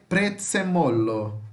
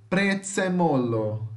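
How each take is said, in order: No difference in how they are said.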